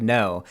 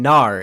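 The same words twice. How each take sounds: First: Said in the usual way. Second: "nar" with an ar vowel, louder; "nar" hit hard as the accented no; New Zealand pronunciation. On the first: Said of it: "instead of". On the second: Retold or imitated. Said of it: "You're saying".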